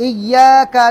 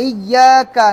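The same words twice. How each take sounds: No difference in how they are said.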